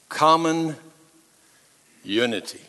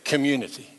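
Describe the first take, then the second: First: The word is said slowly, syllables drawn apart. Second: The word is said quickly, syllables run together. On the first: "let me say that word community slow" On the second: "I'll say it fast again"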